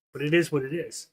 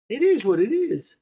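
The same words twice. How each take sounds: First: Said in the usual way. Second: Mock wise man. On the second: To his stream viewers, quoting a wise man in a high, hammed-up voice. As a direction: ham up the old saying as if quoting a guru. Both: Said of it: "says the man".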